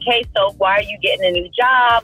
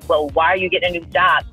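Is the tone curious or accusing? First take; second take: curious; accusing. First: It sounds curious and friendly. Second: It sounds accusing and judgmental.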